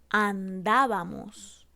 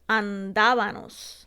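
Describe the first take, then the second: First: The ending uses an m sound. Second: The ending uses an n sound. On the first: The speaker calls it right. "la correcta" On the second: The speaker calls it wrong. "cambiamos la M por la N"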